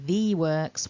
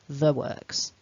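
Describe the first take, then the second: First: The word 'the' has a full, strong vowel. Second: The word 'the' has a weak, reduced vowel. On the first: The speaker calls it wrong. "we don't say the works" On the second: The speaker calls it right. "we weaken our the"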